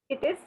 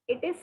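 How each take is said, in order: The two takes are said the same way.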